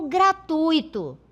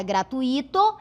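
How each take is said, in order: First: "gratuito" as gra-TUI-to, stress on U; slow "gratuito", UI as one syllable, stressed U; standard diphthong. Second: "gratuito" as gra-tu-I-to, stress on I; hiatus variant. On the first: Teacher offers the standard variant, "gratuito" stressed on TUI. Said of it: "Qual é a palavra correta". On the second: Teacher shows the common variant, "gratuito" stressed on separate I. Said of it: "pronunciada gratuito". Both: Shown as a demonstration.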